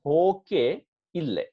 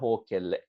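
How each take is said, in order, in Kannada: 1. ಎರಡು ಪದಗಳನ್ನು ಬೇರೆ ಬೇರೆಯಾಗಿ ಹೇಳುತ್ತಾರೆ. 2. ಎರಡು ಪದಗಳನ್ನು ಒಟ್ಟಿಗೆ ಸೇರಿಸಿ ಒಂದೇ ಪದದಂತೆ ಹೇಳುತ್ತಾರೆ.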